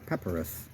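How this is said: It is said the way the British say it.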